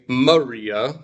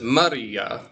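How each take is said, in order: First: The R is said plainly without a roll. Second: The R is said with a slight roll. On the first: "I'm not saying Maria" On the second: "a bit of a roll in the R's"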